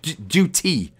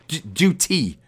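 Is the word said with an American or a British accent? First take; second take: British; British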